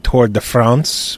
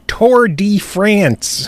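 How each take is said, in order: First: France is given its official, non-American pronunciation. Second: France is given a plain American English pronunciation. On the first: This is the proper official name. "I think officially it would be Tour de France" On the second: The speakers are American and say it their way. "but we're American, okay. So it's Tour de France"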